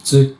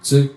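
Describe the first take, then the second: The two takes are said the same way.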